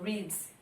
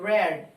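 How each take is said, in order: First: The word is said with its base-form pronunciation. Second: The word is said with its past-tense pronunciation. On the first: This is the base form of the verb. "a forma base dele seria" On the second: The action happened in the past. "no passado a pronúncia é diferente"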